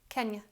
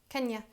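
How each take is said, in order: The two takes are said the same way.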